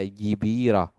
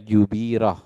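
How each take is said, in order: First: The first vowel is i. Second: The first vowel is u. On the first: "atau dibaca jibirah" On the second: "jangan dibaca jubirah"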